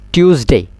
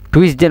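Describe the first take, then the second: First: টিউসডে with a "tyoos" start; corrected TUESDAY. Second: টুইসডে with a "twis" start; mistaken TUESDAY. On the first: Teacher drilling students, টিউসডে with "tyoos". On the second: Teacher warning students off the mistake, টুইসডে with "twis". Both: Shown as a demonstration. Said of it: "টুইসডে ন হইবেন".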